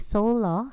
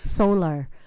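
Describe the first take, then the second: First: The final R is left off. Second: The final R is clearly pronounced. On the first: This is how the locals say the place name. "And they would say Sola" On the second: This is how the newcomer says the place name. "you have to remember the R there"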